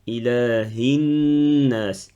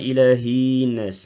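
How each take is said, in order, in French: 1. Le son n est tenu avec une résonance nasale. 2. Le son n est court, non tenu. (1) "je reste sur le noun avec le nazimo" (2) "Pas ilahinas"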